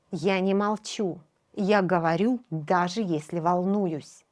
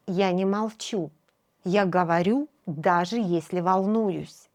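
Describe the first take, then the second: No difference in how they are said.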